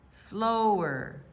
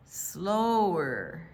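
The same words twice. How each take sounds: The two takes are said the same way.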